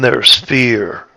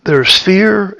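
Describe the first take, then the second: First: "fear" lower, slow and falling; grave fear. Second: "fear" said high and held up; light fear. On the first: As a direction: say "fear" slowly, with weight, dropping down. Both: Shown as a demonstration. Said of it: "is in the tone of my voice".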